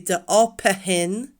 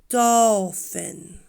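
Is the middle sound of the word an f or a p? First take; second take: p; f. First: The middle letters are sounded like a p. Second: The middle letters are sounded like an f. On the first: The speaker calls it wrong. "we wouldn't say dolphin. No" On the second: The speaker calls it right. "Because P H is f"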